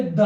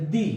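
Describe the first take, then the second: First: Short "द" with a neutral vowel; current pronunciation. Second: Long "दी" with an ee vowel; old pronunciation. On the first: Teacher demonstrating the modern way to say "the", spoken plainly. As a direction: say "द" clipped, like "the" before a consonant. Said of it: "अब इसका उच्चारण होता द". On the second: Teacher showing how "the" used to be said, spoken plainly. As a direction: stretch "दी" to a clear ee sound. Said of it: "पहले दी बोलते थे". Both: Shown as a demonstration.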